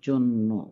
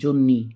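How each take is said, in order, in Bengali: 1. শব্দটি 'o' স্বরধ্বনি দিয়ে শেষ হয়। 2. শব্দটি 'ee' স্বরধ্বনি দিয়ে শেষ হয়।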